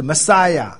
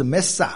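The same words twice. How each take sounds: First: Messiah as "ma-SAI-ya", middle syllable punched; Hebrew pronunciation. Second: Mesa as two syllables, "MES-sa"; Arabic pronunciation. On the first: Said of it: "希伯来语是Messiah". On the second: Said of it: "那阿拉伯语是Mesa". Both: Shown as a demonstration.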